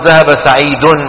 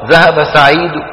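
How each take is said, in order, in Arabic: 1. الكلمة الأخيرة تنتهي بحركة كاملة. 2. الكلمة الأخيرة تنتهي بحركة خفيفة هادئة. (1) "ما بيعملوا هيك" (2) "بينطقوا ضمة صوتها واطي"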